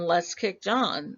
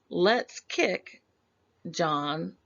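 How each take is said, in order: First: There is no pause after kick. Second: There is a pause after kick.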